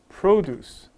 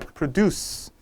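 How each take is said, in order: First: The stress is on the first syllable. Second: The stress is on the second syllable. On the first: It is a noun meaning farm products. "noun이에요... produce 앞에 있어" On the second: It is a verb meaning to make. "verb로 쓸 때 생산하다 할 때는 뒤에 있어"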